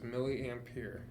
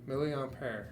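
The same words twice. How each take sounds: First: It is pronounced the English way. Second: It is pronounced the French way. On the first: "that's the English way" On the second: "is how they would pronounce it in French"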